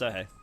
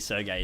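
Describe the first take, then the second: First: The middle consonant is a soft H sound. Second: The middle consonant is a hard G sound. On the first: "No, he doesn't. Yeah, yeah I'm pretty sure it's Serhei" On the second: "It's probably Sergey, isn't it? He's got a G in there, right?"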